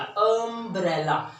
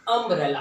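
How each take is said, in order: First: "अम्ब्रेला" slowly, with a long opening "uh"; drawn-out first sound. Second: Said in the usual way. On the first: Shown as a demonstration. Teacher showing the first sound, "अम्ब्रेला" drawn out on "uh". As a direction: stretch the first vowel of "अम्ब्रेला". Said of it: "तो अ का sound आया". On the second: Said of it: "हम इसे पढ़ते हैं".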